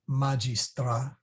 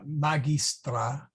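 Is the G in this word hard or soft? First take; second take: soft; hard. First: The G is pronounced as a soft sound. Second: The G is pronounced as a hard sound. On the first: This is the speaker's own usual pronunciation. "We would say magistra" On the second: This is the classical pronunciation. "hard G"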